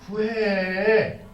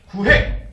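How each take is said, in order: First: It is said as a gentle, permitting invitation. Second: It is said as a stern, forceful command. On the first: You are allowed to ask. The speaker calls it right. "구해도 돼" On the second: You are ordered to ask. The speaker calls it wrong. "라고 명령하는 것이 아니에요"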